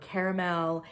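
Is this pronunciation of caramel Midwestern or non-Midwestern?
non-Midwestern. It is said a non-Midwestern way. "in other places it is caramel"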